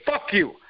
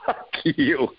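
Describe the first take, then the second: First: Blunt, higher-pitched jab; straight insult. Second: Teasing, breaking into a laugh; playful tease. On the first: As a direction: throw it out as a curt insult. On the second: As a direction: say it like a joke between friends and laugh. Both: Shown as a demonstration. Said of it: "the tone is different".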